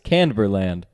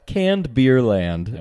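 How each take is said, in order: First: The name is said fast and run together. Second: The name is said slowly and carefully.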